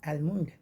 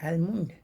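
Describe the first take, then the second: The two takes are said the same way.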